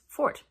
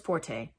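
First: The word has one syllable, like 'fort'. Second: The word has two syllables, ending in 'tay'. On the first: The speaker calls it right. "The pronunciation is fort, because the origin of the word is fort, like the building" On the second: The speaker calls it wrong. "Everybody says forte, and that is not the pronunciation"

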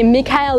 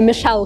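First: The name is said as 'Mee-ka-el'. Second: The name is said as 'Mee-shel'. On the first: "правильно называется не Микаэл" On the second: "или Мишель Корс"

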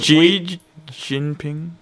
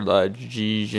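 First: The name is said slowly and carefully. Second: The name is rushed through quickly. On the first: The speaker makes a real attempt at the name. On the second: The speaker hopes nobody notices the pronunciation.

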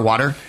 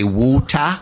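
First: It is said with an American accent. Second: It is said with a British accent. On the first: "because we say water" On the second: "English people say woota"

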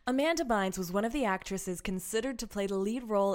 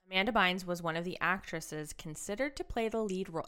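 First: It is read in a put-on voiceover voice. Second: It is read in a normal speaking voice.

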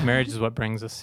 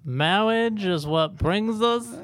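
First: It is said in the speaker's normal voice. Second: It is said in a put-on character voice. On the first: The speaker calls it wrong. "I don't want to do it in the voice" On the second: The speaker calls it right. "you have to do it in the voice"

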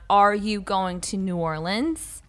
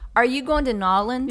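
First: New Orleans is said in full, several syllables. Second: New Orleans is squeezed into a short 'Nolens'. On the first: This is the ordinary way to say it. "which is how you would normally say it" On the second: The speaker is showing off being a local. "people who were from Louisiana... They were walking around going"

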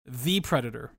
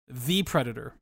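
First: 'The' is said with a long ee vowel. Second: 'The' is said with a long ee vowel.

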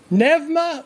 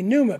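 First: It is pronounced the Greek way. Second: It is pronounced the anglicized, English way. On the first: "or it would be the Greek pronunciation" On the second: "or if you anglicize it, it'd be pneuma"

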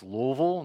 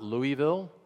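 First: The name is said in the local way. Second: The name is said in the outsider way. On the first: The speaker belongs to the place. The speaker calls it right. "if you're from Louisville, it's Louisville" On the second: The speaker does not belong to the place. The speaker calls it wrong. "not Louisville"

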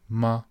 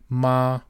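First: The pitch is short and light, unstressed. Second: The pitch stays high and level. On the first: It marks a question. "the question word in Chinese" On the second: It means mother.

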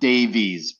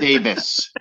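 First: The name ends with a long 'eez' sound. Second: The name ends with a short 'iss' sound. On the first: The speaker calls it wrong. "It's not Davies" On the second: The speaker calls it right. "Davis. Davis"

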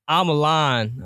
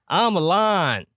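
First: It is yelled loudly. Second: It is yelled even louder. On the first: The speaker is starting to believe the claim. "yell that shit" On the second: The speaker fully believes the claim.

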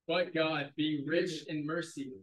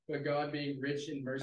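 First: It is read with strong energy and emphasis. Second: It is read plainly, without extra energy.

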